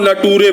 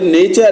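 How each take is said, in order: First: The middle consonant is a t sound. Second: The middle consonant is a ch sound. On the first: The speaker calls it wrong. "कुछ बच्चे जो हैं नेचर को नटूरे पढ़ते हैं" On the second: The speaker calls it right. "ये नेचर है"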